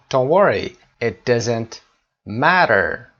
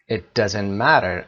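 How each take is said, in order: First: Said in the usual way. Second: Slow, word-by-word teacher reading; slow dictation. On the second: Shown as a demonstration. Teacher repeating the phrase slowly for students. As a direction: read it out slowly so the class can follow. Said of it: "teacher repeats slowly for class".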